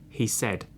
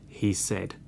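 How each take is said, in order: No difference in how they are said.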